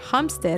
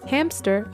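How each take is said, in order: First: It is said with Spanish pronunciation. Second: It is said with English pronunciation.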